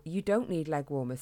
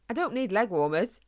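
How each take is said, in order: First: Father voice. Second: Put-on quick, slightly higher boy's voice; young hedgehog voice. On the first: Acted. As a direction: repeat it back like a bemused father. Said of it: "His dad looked confused". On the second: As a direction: blurt it out like an eager kid. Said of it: "Harris quickly replied".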